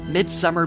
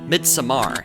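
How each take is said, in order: First: The title is given a plain, ordinary pronunciation. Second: The title is given a pretentious, affected pronunciation.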